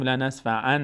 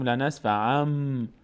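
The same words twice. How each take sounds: First: لنصفعن ending in a clear n; wrong n reading. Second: لنصفعم slowly, final m hummed long; n turned to m. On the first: Teacher shows what not to say, لنصفعن with plain n. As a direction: keep the final n of لنصفعن. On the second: Teacher shows what we say, لنصفعم with lengthened m. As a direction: hold the m ending لنصفعم. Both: Shown as a demonstration.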